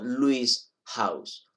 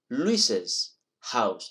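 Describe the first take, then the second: First: The name runs straight into the next word. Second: An extra 'iz' syllable follows the name. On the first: The speaker calls it wrong. "no Luis house" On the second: The speaker calls it right. "Y se pronuncia Luis's house"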